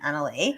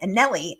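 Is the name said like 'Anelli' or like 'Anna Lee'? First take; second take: Anna Lee; Anelli. First: The name sounds like 'Anna Lee'. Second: The name sounds like 'Anelli'. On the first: The speaker calls it right. "I will be saying that right from now on" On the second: The speaker calls it wrong. "I'm sorry I've been saying Anelli"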